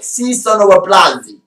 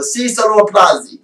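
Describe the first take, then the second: First: "Si sono applausi" in a hammed-up Italian accent, sung out theatrically. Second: "Si sono applausi" read as mock Italian with little accent, in a lightly raised voice; a light pretend-Italian reading of "Si sono applausi"; faking Italian. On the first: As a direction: play an exaggerated Italian showman on "Si sono applausi". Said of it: "I sometimes I do an Italian accent". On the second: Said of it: "I fake the Italian in that".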